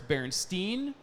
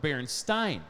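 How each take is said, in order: First: The last syllable rhymes with 'seen'. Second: The last syllable rhymes with 'sign'.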